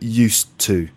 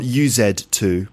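First: The words run together with an s sound. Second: Each word is said fully, with a z sound. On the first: The speaker calls it right. "but used to" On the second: The speaker calls it wrong. "Not U-Z-2"

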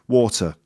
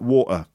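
First: The middle T sound is clearly pronounced. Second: The middle T sound is dropped. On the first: "if you say the word water" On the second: "if you drop your T, which is quite typical in the UK, it sounds a bit like"

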